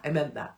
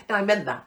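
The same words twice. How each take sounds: First: Said in the usual way. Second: "No" punched louder and falling; firm "No, I meant that"; insistent. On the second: Real, not acted. Insisting the apology to the postman is sincere.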